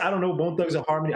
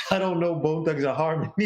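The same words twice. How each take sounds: First: Said in the usual way. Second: Put-on joking stab at a Zimbabwean accent; attempted Zimbabwean accent. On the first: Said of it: "I don't know why I tried to do your accent". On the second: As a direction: imitate a Zimbabwean accent, close to laughing. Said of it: "I tried to do your accent".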